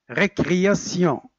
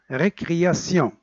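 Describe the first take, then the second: The two takes are said the same way.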